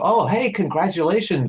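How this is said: It sounds sincere and warm.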